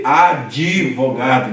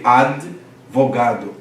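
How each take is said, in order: First: Advogado said slowly as adivogado, an i slipped after the d; Brazilian i insertion. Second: Advogado said slow with no added vowel, ad-vo-ga-do; advogado, every syllable held apart; careful spelling pronunciation. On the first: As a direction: stretch advogado into adi-vo-ga-do. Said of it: "a gente faz o quê?". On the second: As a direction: sound out advogado slowly, closed d with no i after it. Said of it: "você tem uma oclusiva aí". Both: Shown as a demonstration.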